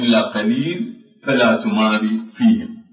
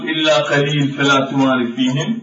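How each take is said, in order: First: The reciter pauses after قليل before continuing. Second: The phrase runs on without a pause after قليل. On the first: "ولكن الأفضل الأولى أن نقف على قليل" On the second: "يصح أن نقول إلا قليل فلا تمار فيهم"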